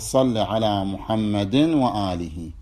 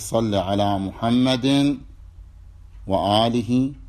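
First: There is no pause after 'Muhammad' before 'wa-alih'. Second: There is a pause after 'Muhammad' before 'wa-alih'. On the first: "بدون أن تقف وبدون الإدغام" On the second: "ويجوز ترك الإدغام في مثل ذلك مع الوقف"

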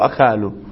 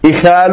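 First: The word begins with an 'a' vowel. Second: The word begins with an 'i' vowel. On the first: "وقرأت بفتح الهمزة" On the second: "قرأت بكسر الهمزة"

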